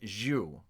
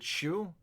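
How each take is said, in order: First: The name begins with a zh sound. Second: The name begins with a sh sound.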